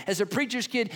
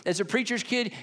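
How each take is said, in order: Both takes have the same delivery.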